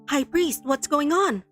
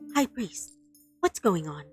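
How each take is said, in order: First: It is read with noticeable emotion. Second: It is read in a flat, neutral tone.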